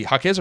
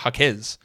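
First: Jaquez with a short, reduced second vowel, like HAH-kiz; first pronunciation option. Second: Jaquez with a full open final syllable, like hah-KEZ; second pronunciation option. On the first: Host asking listeners about a name, Jaquez said HAH-kiz. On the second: Host asking listeners about a name, Jaquez said hah-KEZ. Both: Shown as a demonstration. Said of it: "how do I pronounce Jaquez".

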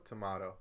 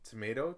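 First: "tomato" said tuh-MAH-toh; British pronunciation. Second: "tomato" said tuh-MAY-toh; American pronunciation. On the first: Co-host quizzes the Brit on pronunciation, tuh-MAH-toh "tomato". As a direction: say "tomato" with an AH in the middle. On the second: Co-host quizzes the Brit on pronunciation, tuh-MAY-toh "tomato". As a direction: say "tomato" with an AY in the middle. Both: Shown as a demonstration. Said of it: "While we're here, tomato, tomato".

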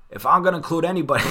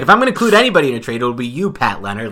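First: Higher, louder, fast botched GM voice; crappy Gettleman impression. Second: Much higher, much louder and very fast GM voice; hammed-up Gettleman impression. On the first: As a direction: rush a clumsy impression of the GM, pitched up. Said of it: "I'll do my crappy Dave Gettleman accent". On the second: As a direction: blast out an over-the-top impression of the GM talking to a reporter. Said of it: "It's so bad".

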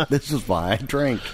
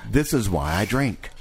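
First: Laughing through the line; chuckling as you say it. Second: Said in the usual way. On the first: Real, not acted. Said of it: "repeats laughing". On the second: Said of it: "repeats line differently".

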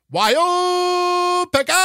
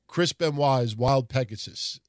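First: Much higher, louder, slow drawn-out name call; Japanese announcer call. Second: Said in the usual way. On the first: Retold or imitated. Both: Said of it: "it would always be".

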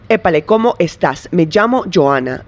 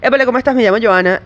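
First: "Épale, ¿cómo estás?" with every s pronounced crisply, "estás" ending in a clear s; careful neutral Spanish, robotic and precise, every final s sounded; neutral Spanish diction. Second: "Épale, ¿cómo estás?" in relaxed Venezuelan Spanish, final s dropped as "cómo etá"; Venezuelan Spanish accent. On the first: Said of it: "I sound like a frickin' computer". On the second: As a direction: Venezuelan Spanish, swallow the s sounds, a bit higher and lively. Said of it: "I would say something like". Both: Shown as a demonstration.

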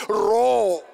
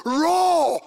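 First: Loud, drawn-out order to roar; retold command. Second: Loud, high, drawn-out shout imitating her order; louder command. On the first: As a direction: fire it out as a command. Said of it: "puts a mic and she says". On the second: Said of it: "she even said it louder".

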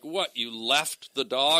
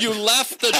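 First: Slow, drawn-out mock disbelief; retold disbelief. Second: High, mock-horrified question; freaking out. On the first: Comic imitating the producer who keeps picking it up, slow disbelief. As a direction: stretch it into an incredulous question. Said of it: "she kept picking it up". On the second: Comic imitating the producer at the audition, freaking out. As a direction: imitate her appalled disbelief. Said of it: "now she's freaking out".

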